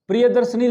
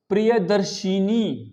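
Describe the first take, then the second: First: The word ends in -darshani with no extra vowel. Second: The word ends in -darshini with an added 'i'. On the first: The speaker calls it wrong. "प्रियदर्शनी लिख देते हैं हम" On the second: The speaker calls it right. "यहां इनी लग गया"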